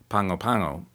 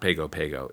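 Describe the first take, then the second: First: The middle has an 'ng' sound before 'g'. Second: The middle has a plain 'g' without 'ng'. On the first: The speaker calls it right. "It's closer to Pango Pango" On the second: The speaker calls it wrong. "It's not Pago Pago"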